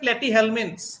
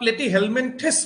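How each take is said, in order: First: The word ends with a short 'ments' sound. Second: The word ends with a longer 'minthis' sound. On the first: "দুটাই শুদ্ধ" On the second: "দুটাই শুদ্ধ"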